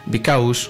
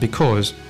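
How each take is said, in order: First: The second vowel glides as a diphthong. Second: The second vowel is a single plain vowel. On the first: The speaker calls it wrong. "some Spanish speakers tend to say bicaus" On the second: The speaker calls it right. "the pronunciation is precisely that"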